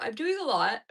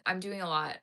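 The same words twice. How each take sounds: First: "I'm doing a lot" yawned out, louder and stretched; yawning. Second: Said in the usual way. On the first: Real, not acted. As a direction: let "I'm doing a lot" get swallowed by a yawn. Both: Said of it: "I'm yawning so much".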